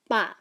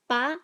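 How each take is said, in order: First: "ba" dropping at the end; falling tone. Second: "ba" rising like a question; asking tune on "ba". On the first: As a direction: let "ba" fall like a backslash. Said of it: "A M has a falling tone". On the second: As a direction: swing "ba" upward. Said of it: "A B has a question tone". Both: Shown as a demonstration.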